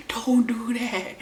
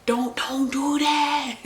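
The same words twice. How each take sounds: First: Firm warning. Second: Laughing warning. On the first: Repeats warning to friend. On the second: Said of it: "And I'm like". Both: Retold or imitated.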